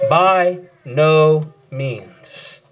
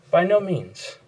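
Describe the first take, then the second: First: Slow and louder, every word of "By no means" drawn out and weighted; emphatic denial. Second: Said in the usual way. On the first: Shown as a demonstration. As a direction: let "By no means" land slowly and firmly, word by word. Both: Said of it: "Paul answers".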